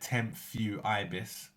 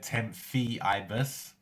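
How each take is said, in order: First: The second syllable sounds like 'few'. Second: The second syllable sounds like 'fee'. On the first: The speaker calls it right. "you'll get it right" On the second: The speaker calls it wrong. "Some people have even said"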